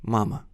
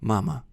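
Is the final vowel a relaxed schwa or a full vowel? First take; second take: schwa; schwa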